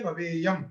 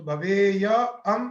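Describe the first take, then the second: First: Said in the usual way. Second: भवेय and अम said slowly, kept apart; slow separated parts. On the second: Shown as a demonstration. Teacher showing students the parts before joining, slowly. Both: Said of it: "मिला दीजिए".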